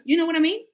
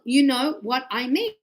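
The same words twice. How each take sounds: First: Quick, linked "You know what I mean"; words run together. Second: Word by word. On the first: Teacher showing fast natural speech, words linked. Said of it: "I'm gonna go". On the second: Teacher spelling out fast speech, word by word. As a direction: separate every word of "you know what I mean". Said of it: "we don't speak like that". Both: Shown as a demonstration.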